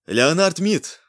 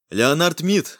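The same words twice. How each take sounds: First: Мид said louder and higher. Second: Said in the usual way. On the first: A narrator's reading. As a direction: repeat Леонард Мид loudly, raised. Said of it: "Громче!".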